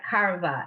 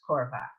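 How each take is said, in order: First: The first vowel is an open 'ah' sound. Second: The first vowel is a rounded 'oh' sound. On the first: The speaker calls it wrong. "It looks like karva if you think they're both the same" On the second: The speaker calls it right. "but it's korva"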